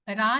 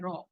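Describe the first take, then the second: First: The vowel is light and open. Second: The vowel is heavy and rounded. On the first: The speaker calls it wrong. "रा नहीं है ये" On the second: The speaker calls it right. "रॉ है"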